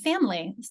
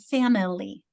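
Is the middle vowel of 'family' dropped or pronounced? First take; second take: dropped; pronounced. First: It is said with two syllables, middle vowel dropped. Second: It is said with three syllables, middle vowel heard. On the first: "I pronounce it family. Then hence the kids struggle and they miss the I" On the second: "she pronounces it family"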